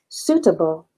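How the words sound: The middle t is pronounced clearly and crisply. "versi Inggris atau British ... huruf T-nya dibaca jelas"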